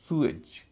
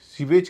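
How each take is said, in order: First: The first vowel sounds like 'oo'. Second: The first vowel sounds like 'ee'. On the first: The speaker calls it right. "उसका उच्चारण होगा सुएज" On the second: The speaker calls it wrong. "इसे भी सीवेज कहते हैं हम लोग"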